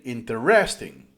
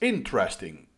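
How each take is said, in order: First: The stress is on a later syllable. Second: The stress is on the first syllable. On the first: The speaker calls it wrong. "I was stressing the wrong syllable" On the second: The speaker calls it right. "it's the first syllable that is um, stressed"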